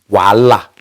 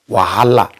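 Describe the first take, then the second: First: The name has no h sound in the middle. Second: The name has an h sound in the middle. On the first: The speaker calls it right. "but it's wala" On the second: The speaker calls it wrong. "they address it as wahala"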